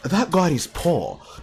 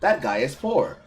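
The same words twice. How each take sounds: First: It is read in a put-on character voice. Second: It is read in his normal voice.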